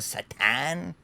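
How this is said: It is said in a Spanish accent.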